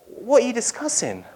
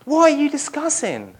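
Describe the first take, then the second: First: Gentle question. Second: High, innocent what-are-you-discussing; feigned ignorance. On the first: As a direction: ask kindly as a stranger. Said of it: "Jesus comes and says". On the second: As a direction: play dumb, eyebrows up. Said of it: "Like he doesn't know". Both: Pretend.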